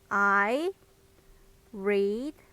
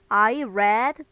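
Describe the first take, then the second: First: The verb is said with a long ee vowel. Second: The verb is said with a short e vowel. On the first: It refers to the present. The speaker calls it wrong. "맨 처음에는 read로 읽었었는데요" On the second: It refers to the past. The speaker calls it right. "나중에 read라고 제가 발음을 바꿔서 불렀었죠"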